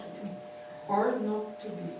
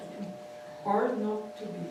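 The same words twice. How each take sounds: First: It is said with long pauses between phrases. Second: It is said with long pauses between phrases.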